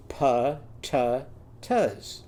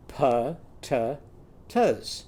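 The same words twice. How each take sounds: First: Pa-ta-tas drawn out slowly, each syllable clear. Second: Pa-ta-tas slowly and evenly. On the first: Teacher modelling pa-ta-tas for kids to copy. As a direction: stretch out pa-ta-tas. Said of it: "are going to be". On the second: Teacher repeating pa-ta-tas for the kids. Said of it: "Try that". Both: Shown as a demonstration.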